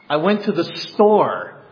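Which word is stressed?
store. The word store is stressed. It was the store, not the park.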